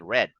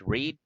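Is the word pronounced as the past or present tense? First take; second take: past; present. First: It is pronounced as the past tense form. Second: It is pronounced as the present tense form. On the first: The action happened before. "this is also the past tense, but we say read" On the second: The action happens now. "this is the present tense read"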